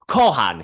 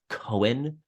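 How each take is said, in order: First: The name is said the local Irish way. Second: The name is said the usual American way. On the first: This is how locals say it. "it's pronounced Kohan here" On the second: This is how outsiders would say it. "we would pronounce it as Cohen"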